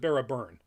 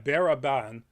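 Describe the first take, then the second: First: The last syllable sounds like 'burn'. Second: The last syllable sounds like 'ban'. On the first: This is how the speaker's own community would pronounce it. "we'd pronounce it Baraburn, like John Byrne" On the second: This is how the show pronounces it. "how do they pronounce his name? Um, in here"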